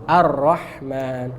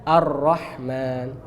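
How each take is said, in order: The two takes are said the same way.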